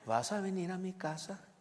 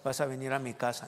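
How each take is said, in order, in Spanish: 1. Se dice con entonación interrogativa. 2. Se dice de forma plana, sin entonación interrogativa.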